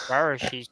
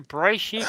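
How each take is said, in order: First: Bereshit said as "BEH-ruh-shee"; three-syllable Bereshit. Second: Bereshit said as "bray-SHEET"; two-syllable Bereshit. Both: Shown as a demonstration. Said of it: "Is it a Bereshit or Bereshit?".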